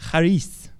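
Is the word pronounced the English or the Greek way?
Greek. The word is said with a Greek pronunciation. "But the Greek way of saying it is like charis"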